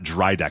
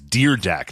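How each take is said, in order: First: The first syllable sounds like 'dry'. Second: The first syllable sounds like 'deer'. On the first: The speaker calls it wrong. "not Dry Deck" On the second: The speaker calls it right. "it's Deer Deck"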